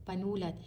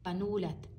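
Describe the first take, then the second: The two takes are said the same way.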